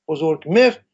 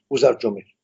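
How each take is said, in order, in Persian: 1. این نام با صدای g تلفظ میشود. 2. این نام با صدای j تلفظ میشود.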